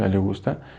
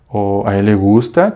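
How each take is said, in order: First: The voice falls at the end. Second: The voice rises at the end. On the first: It is a statement. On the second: It is a question.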